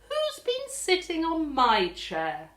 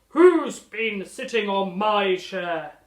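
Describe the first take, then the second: First: It is said in a plain, normal voice. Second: It is bellowed in a loud, deep voice.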